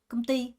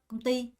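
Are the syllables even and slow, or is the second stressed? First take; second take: second stressed; second stressed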